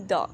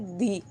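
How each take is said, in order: First: The word ends in a short, weak 'uh' vowel. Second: The word ends in a long 'ee' vowel. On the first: It comes before a word starting with a consonant. "कंसोनेंट letters के साथ हम द का use करते हैं" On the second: It comes before a word starting with a vowel. "वाउल्स के साथ हम क्या यूज़ करेंगे"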